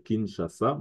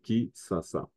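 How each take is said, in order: First: The middle consonant is a 'sh' sound. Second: The middle consonant is an 's' sound. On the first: "c'est Kinshasa" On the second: "qu'on appelle aussi Kisasa"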